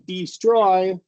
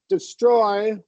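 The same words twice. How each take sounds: First: The first vowel is a long ee sound. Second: The first vowel is a short reduced schwa. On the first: The speaker calls it wrong. "if you do long e" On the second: The speaker calls it right. "the second one sounds more fluid"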